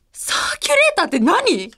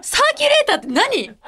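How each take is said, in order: First: Said in the usual way. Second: High-pitched laughing puzzlement; baffled question. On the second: Real, not acted. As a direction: ask it like you've never heard the word. Baffled by theme word. (笑いながら困惑して問いかける)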